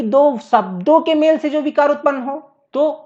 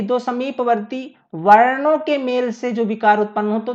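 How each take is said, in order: First: शब्दों picked out higher as the contrasting word; stress on शब्दों. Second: वर्णों set off and punched as the key word; stress on वर्णों. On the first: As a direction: raise the pitch and lean on शब्दों. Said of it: "अब बोल दे कि". ("शब्दों" पर ऊँचे सुर में ज़ोर) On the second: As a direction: lean on वर्णों, then move quicker through the rest. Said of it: "अगर बोल दे कि". ("वर्णों" पर ज़ोर देकर) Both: Shown as a demonstration.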